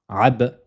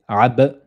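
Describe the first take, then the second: The two takes are said the same way.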